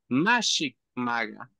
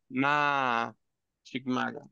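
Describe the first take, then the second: First: The syllables run together without a pause. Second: There is a pause after the first syllable. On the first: It is the intended subjunctive form. The speaker calls it right. "pero es Mashik Maga" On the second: It expresses a negation. The speaker calls it wrong. "si yo hago una pausa acá es negación"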